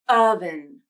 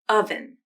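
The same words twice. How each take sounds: First: The word is slow, stretching its first sound. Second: The word is said at a normal speed.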